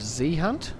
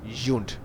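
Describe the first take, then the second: First: The name is said as two syllables. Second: The name is said as one syllable. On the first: Other players say the name this way. The speaker calls it wrong. "I've been called many things in this game" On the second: This is how the owner says the name. The speaker calls it right. "correct pronunciation is, in fact, Junt"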